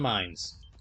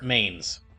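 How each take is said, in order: First: The word is pronounced like 'mines'. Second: The word is pronounced like 'mains'. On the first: "I keep alternating between pronouncing it mines and mains" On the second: "I keep alternating between pronouncing it mines and mains"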